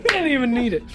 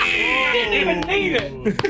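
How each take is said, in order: First: Said in the usual way. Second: Much higher, slow gleeful tease on Didn't; delighted drawl. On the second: Real, not acted. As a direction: stretch Didn't even need it out gleefully. First take, drawn out.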